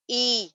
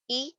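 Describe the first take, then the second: First: Second ای stretched into "eee"; lengthened ای; long i. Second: First ای as a quick "i"; one brief ای, not stretched; short i. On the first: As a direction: hold the ای out. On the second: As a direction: keep ای short. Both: Shown as a demonstration. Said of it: "فرق دیکھ رہے ہیں".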